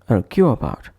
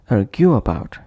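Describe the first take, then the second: Both takes have the same delivery.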